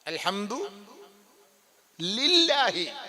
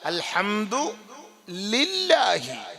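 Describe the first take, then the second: No difference in how they are said.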